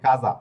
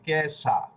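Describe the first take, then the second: First: The middle consonant is a voiced z sound. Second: The middle consonant is a voiceless s sound. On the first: The speaker calls it right. "বড়িগার জ এর উচ্চারণ কাজা" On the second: The speaker calls it wrong. "ইংরেজি উচ্চারণ যদি করেন তাহলে হবে কেশা"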